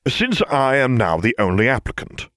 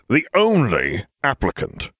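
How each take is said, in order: First: Said in the usual way. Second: "only" pushed hard, words slow; ground out. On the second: Acted. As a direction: grind out "The only applicant" slowly, leaning on "only". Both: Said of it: "Severus ground out".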